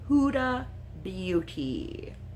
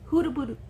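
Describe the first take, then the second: First: The second word is said clearly and fully. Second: The second word comes out garbled and slurred. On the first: The speaker calls it right. "There we go" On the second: The speaker calls it wrong. "No, I can't say it right"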